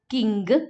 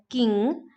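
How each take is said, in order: First: The word ends in ng followed by a g sound. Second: The word ends in ng with no g sound.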